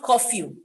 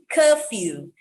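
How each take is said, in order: First: "curfew" with an "aw" first vowel, KAW-fyoo; mispronunciation. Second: "curfew" with an "uh" first vowel, KUH-fyoo; correct pronunciation. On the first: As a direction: say "curfew" wrongly as "koff-yoo". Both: Shown as a demonstration. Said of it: "not curfew".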